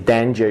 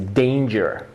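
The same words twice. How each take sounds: First: The first vowel is a single pure vowel. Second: The first vowel glides as a diphthong. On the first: The speaker calls it wrong. "You don't say danger" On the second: The speaker calls it right. "you say danger"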